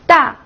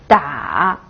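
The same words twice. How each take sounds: First: The pitch falls sharply from high to low. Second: The pitch dips low, then rises.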